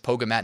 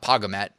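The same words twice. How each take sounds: First: The first syllable sounds like the start of yoga. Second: The first syllable does not sound like yoga. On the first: The speaker calls it right. "I'm assuming it's Pogamat, because it sounds like yoga" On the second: The speaker calls it wrong. "not Pogamat"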